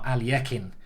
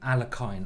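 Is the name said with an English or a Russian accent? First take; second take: Russian; English. First: It is said with a put-on Russian accent. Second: It is said with a plain English accent.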